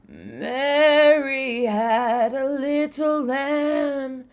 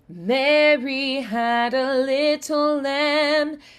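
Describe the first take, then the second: First: The voice has a creaky vocal fry. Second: The voice is clean and solid. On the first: "try with a little vocal fry" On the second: "first get that like solid sound"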